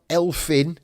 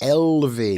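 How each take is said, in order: First: The middle consonant is an F sound. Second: The middle consonant is a V sound. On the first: The speaker calls it wrong. "It's not Elfyn" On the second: The speaker calls it right. "The single F is pronounced like a V"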